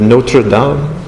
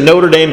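First: It is said with an attempted French accent. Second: It is said with an American accent. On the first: "I have a terrible French accent" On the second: "I'll just say it with an American accent"

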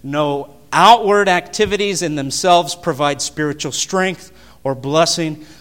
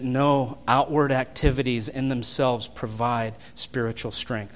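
First: It is said at a louder volume. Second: It is said at normal, softer volume.

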